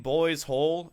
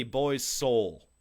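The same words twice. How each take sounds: First: "hole" starting on a clear h; misheard lyric. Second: "soul" starting on a clear s; corrected lyric. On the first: Critic pointing out the misheard lyric, "hole" with an h. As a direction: say "hole" slowly, no s sound before it. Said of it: "I feel like you're saying boys' hole". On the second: Critic correcting the singer's line, "soul" with an s. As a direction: enunciate "soul" slowly with a distinct s. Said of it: "the line is very clearly boys' soul". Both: Retold or imitated.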